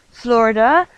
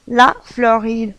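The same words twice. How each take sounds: First: Florida said the English way, stress on the first syllable; English pronunciation. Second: La Floride said the French way, French R, stress on the last syllable; French pronunciation. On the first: Teacher shows students the English name, English pronunciation. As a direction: say Florida as an American would. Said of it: "en anglais Florida". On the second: Teacher gives students the French name, French pronunciation. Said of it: "la Floride en français". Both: Shown as a demonstration.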